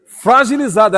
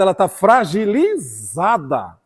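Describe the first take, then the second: First: "Fragilizada" hit louder and higher; "Fragilizada" called out loud and high; emphatic repeat. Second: "fragilizada" stretched very slowly and falling; "ela tá fragilizada" spoken very slowly; drawn-out emphasis. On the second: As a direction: linger on "fragilizada", slow and heavy. Repeats word, drawn out. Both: Acted.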